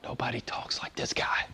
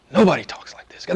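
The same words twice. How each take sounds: First: Hushed, whispered acted reply; very soft mock-awed answer. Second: Said in the usual way. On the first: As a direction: whisper it like an awestruck guard.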